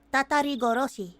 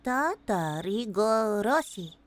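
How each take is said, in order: First: Said in the usual way. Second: "Tatarigoroshi" slow and low, syllable by syllable; slow careful sounding-out. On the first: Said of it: "that's very hard to say". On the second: Shown as a demonstration. Streamer attempting a hard title, "Tatarigoroshi" slowly sounded out. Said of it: "that's very hard to say. Hold on".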